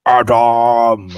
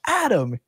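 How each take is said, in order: First: Huge, booming, drawn-out shout; Goliath yell. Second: Higher, louder call of a name; ordinary call. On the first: Acted. Game master as a Goliath calling across a crowd, bellowing. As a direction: bellow the name so it echoes down alleys. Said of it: "it's a Goliath yelling". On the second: Shown as a demonstration. Game master showing the lesser version, an ordinary call. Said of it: "instead of just being".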